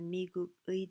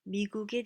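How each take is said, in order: First: The particle is pronounced fully and carefully. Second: The particle is pronounced in a relaxed, reduced way. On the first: The speaker calls it wrong. "trying too hard" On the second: The speaker calls it right. "That sounds more natural"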